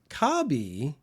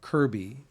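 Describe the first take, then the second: First: The name is said with Japanese sounds. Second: The name is said with English sounds.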